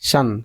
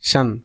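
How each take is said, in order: Both takes have the same delivery.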